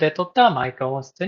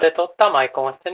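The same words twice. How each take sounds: First: The voice sounds neutral and unprocessed. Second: The voice sounds crisper and brighter. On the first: "こちらがナチュラルで撮ったマイク音質になります。" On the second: "こちらがブライトで撮ったマイク音質になります。"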